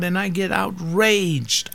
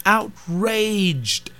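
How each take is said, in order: First: Outraged drawn out slowly and raised; outraged, slow and high. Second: Outraged again, higher and falling hard; indignant outraged, high then falling; outraged, pitched up. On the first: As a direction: lean hard on outraged, stretching it. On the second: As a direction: climb up on outraged, then let it drop. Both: Real, not acted.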